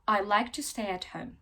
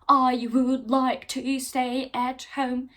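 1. 'I would' tek bir heceye kısaltılarak söylenir. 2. 'I would' iki ayrı tam kelime olarak söylenir. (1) "Bu şekilde daha hızlı konuşabilirsiniz"

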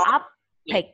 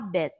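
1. Âm b mạnh và nặng. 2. Âm b mềm và nhẹ. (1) "Từ này chữ âm bờ con đọc là orbit" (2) "mà là orbit"

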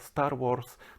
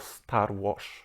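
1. 'rs' w 'Wars' brzmi jak zwykłe s. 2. 'rs' w 'Wars' brzmi jak sh. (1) "nie Star Wars" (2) "Norwegowie mówią ... tylko Star Wars"

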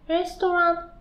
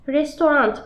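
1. Kelime hiçbir t sesi olmadan bitiyor. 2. Kelime net bir t sesiyle bitiyor. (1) "Türkçesi restaurant. Yani Türkçesinin sonunda T yok" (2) "Burada T var ya. Bu İngilizce hali"

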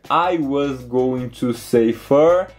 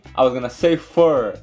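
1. 'Going to' é dito por extenso, como duas palavras. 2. 'Going to' é contraído em 'gonna'. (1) "ao invés de dizer I was going to say fur" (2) "ele contraiu em I was gonna say fur"

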